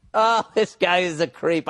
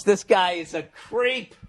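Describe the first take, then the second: First: Oh, this guy is a creep, slow and disgusted. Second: This guy is a creep, slowly; slow disgusted verdict. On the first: Host repeating his verdict on the writer, emphatic. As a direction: say it again, a bit more emphatic. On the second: Host judging the letter writer, slow and disgusted. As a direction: drag it out in disgust. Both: Acted.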